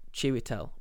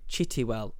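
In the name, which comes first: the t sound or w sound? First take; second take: w sound; t sound. First: The w sound comes before the t sound. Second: The t sound comes before the w sound. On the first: The speaker calls it right. "which is his actual name" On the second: The speaker calls it wrong. "I mispronounce his name slightly, and I call him Chitiwell"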